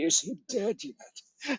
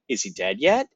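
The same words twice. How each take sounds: First: It is said in a chilling, eerie tone. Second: It is said in a casual, gossipy tone.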